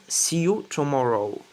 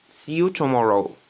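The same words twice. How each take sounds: The two takes are said the same way.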